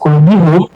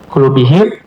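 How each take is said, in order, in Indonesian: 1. Kata itu berakhir dengan huruf vokal u: hum. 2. Kata itu berakhir dengan huruf vokal i: him. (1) "gak enakan" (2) "pas gitu ya"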